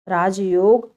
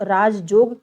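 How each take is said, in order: First: राजयोग said slowly with a clear य sound; correct pronunciation. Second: राजजोग said slowly with ज in place of य; wrong pronunciation demo. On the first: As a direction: show the right way, राजयोग with य. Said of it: "राजयोग को राजजोग लोग बोलते हैं". (शुद्ध उच्चारण राजयोग, य साफ़) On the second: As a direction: show the mistake, राजजोग with a doubled ज. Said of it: "जब उसका उच्चारण लोग". (अशुद्ध उच्चारण राजजोग, य की जगह ज) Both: Shown as a demonstration.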